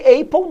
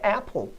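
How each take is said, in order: First: The first vowel is a closed sound. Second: The first vowel is an open sound. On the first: The speaker calls it wrong. "não existe apple não" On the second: The speaker calls it right. "Este é o som aberto, vocálico"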